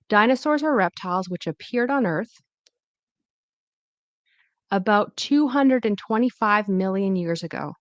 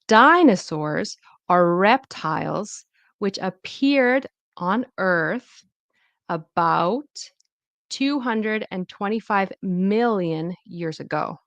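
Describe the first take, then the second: First: The stressed syllables sound natural and relaxed. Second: The stressed syllables are strongly exaggerated. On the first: "then I'll say it naturally after" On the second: "I'm going to exaggerate first"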